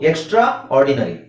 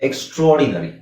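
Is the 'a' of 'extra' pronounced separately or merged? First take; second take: separate; merged. First: The 'a' of 'extra' is pronounced separately. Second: The 'a' of 'extra' is merged and silent.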